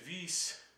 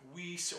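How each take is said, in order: First: The name is said with a German accent. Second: The name is said with a plain English accent.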